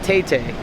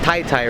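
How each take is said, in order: First: Each syllable has the vowel of 'day'. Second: Each syllable has the vowel of 'tie'. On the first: The speaker calls it wrong. "I definitely know it's not Tay Tay" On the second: The speaker calls it right. "It's Tai Tai, right?"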